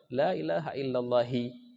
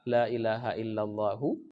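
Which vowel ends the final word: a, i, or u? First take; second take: i; u. First: The last word ends with an i vowel. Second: The last word ends with a u vowel. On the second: "Allahu itulah khabarnya"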